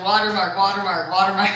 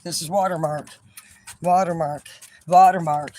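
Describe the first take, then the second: First: "Watermark" said loud, each falling; mock him by shouting watermark back. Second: "watermark" said louder each time, falling; son repeating watermark. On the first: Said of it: "I said". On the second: Retold or imitated. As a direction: hammer the word watermark harder each time. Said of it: "He's like".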